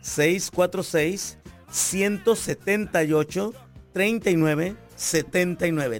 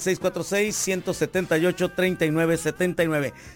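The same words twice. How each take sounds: First: The number is said more slowly. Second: The number is said at normal, quicker speed.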